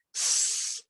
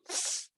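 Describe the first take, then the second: First: The s has a full, sharp hiss. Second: The s has a small, half-hearted hiss. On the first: The speaker calls it right. "Jadi harusnya s" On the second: The speaker calls it wrong. "bukan s"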